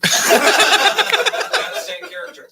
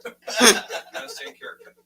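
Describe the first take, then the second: First: Laughing. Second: Repeating it through laughter; laughing. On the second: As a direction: say it again still laughing. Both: Real, not acted.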